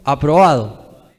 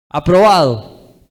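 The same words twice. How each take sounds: First: Said in the usual way. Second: Aprobado said louder and slowly, each syllable leaned on; emphatic repeat. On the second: Shown as a demonstration. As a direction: land hard on the word Aprobado, drawn out and loud. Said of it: "Un obrero aprobado".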